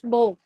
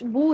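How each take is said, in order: First: The vowel is an o sound. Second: The vowel is a pure u sound. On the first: The speaker calls it wrong. "आप इसको पढ़े बापेश बो" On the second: The speaker calls it right. "बापेश बू है ना"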